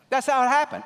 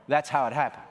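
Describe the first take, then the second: First: High, loud declaration; preacher shouting the punchline; shouted proclamation. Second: Said in the usual way. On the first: Real, not acted. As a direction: ring it out to the congregation. Repeated answer, now shouted.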